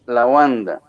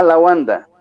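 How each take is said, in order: First: Said in the usual way. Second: "la" pushed higher and louder before Wanda; stress on la. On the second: Shown as a demonstration. Teacher showing students the extra article, stress on "la". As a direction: lean hard on the article "la" to show it is wrong. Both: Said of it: "Entonces no se llama la".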